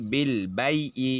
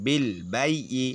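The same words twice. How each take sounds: The two takes are said the same way.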